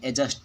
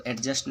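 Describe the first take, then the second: First: "एडजस्ट" with silent d; correct pronunciation. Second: "एडजस्ट" with the d sounded; wrong pronunciation. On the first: Teacher correcting students, "एडजस्ट" read without the d. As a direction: say "एडजस्ट" as e-just. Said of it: "एडजस्ट पढ़ते हैं". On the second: Teacher showing students the mistake, "एडजस्ट" with audible d. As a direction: say "एडजस्ट" as ed-just. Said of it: "इसको एडजस्ट नहीं पढ़ते हैं". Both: Shown as a demonstration.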